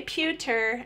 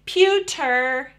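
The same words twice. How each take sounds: First: "pewter" repeated softer; child's echo. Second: "pewter" modelled clearly, syllables drawn out; last two syllables. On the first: Acted. Child copying the parent's two syllables, a softer echo. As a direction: echo "pewter" softly after the model. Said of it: "and they say". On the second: Shown as a demonstration. Parent adding the middle syllable, "pewter" modelled clearly. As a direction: model "pewter" firmly, "pew" then "ter". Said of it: "and you say".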